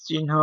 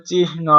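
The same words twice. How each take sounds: First: চিহ্ন said "chin-ho", n before h; common pronunciation. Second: চিহ্ন said "chih-no", h before n; correct pronunciation. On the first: Teacher showing how people usually say it, চিহ্ন as "chin-ho". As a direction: say চিহ্ন with the n ahead of the h. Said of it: "Actually আমরা ... বলে থাকি". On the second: Teacher showing correct pronunciation, চিহ্ন as "chih-no". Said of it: "সঠিক উচ্চারণ হবে". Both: Shown as a demonstration.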